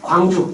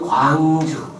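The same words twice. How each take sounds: First: The word is said quickly and briskly. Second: The word is said slowly and stretched out. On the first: It refers to the city named after light. "빛처럼 빨라야 되니까 광주 이렇게 부르고" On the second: It refers to the city named after wideness. "넓을 광자를 써가지고 광주 발음을 그렇게 해야 된다"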